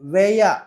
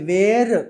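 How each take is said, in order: First: The word ends with a vowel, no r. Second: The word ends with an r sound. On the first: The speaker calls it right. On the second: The speaker calls it wrong. "వేర్ కాదు"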